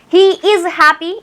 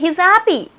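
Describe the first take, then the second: First: He is is said as two full words. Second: He is is shortened into one syllable.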